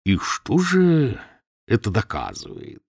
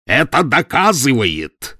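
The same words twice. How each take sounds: First: Mild, softly persuasive question. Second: Slow, loud, hammering fury; roared answer, louder and higher, word by word; furious roar. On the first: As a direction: coax him gently toward the answer. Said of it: "мягким, убеждающим тоном". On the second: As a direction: bellow it in a fit of rage. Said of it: "проревел он в приступе ярости". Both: A narrator's reading.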